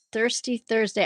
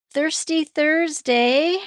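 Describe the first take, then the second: First: Said in the usual way. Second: Thirsty Thursday stretched slow, higher and louder; drawn-out emphasis. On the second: Shown as a demonstration. To chat, announcing Thirsty Thursday with drawn-out emphasis. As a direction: sell "Thirsty Thursday" like a slogan, each word drawn out.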